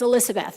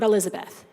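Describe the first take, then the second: First: The middle consonant is an s sound. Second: The middle consonant is a z sound. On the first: The speaker calls it right. "Elizabeth with an S. ... pronounce that correctly" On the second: The speaker calls it wrong.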